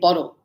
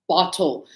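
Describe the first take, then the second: First: It is said in a non-British accent. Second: It is said in a British accent.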